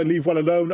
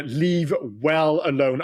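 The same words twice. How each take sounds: First: Said in the usual way. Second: Slow, each word weighed; slow emphatic. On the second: Real, not acted. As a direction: spell it out slowly, leave well alone.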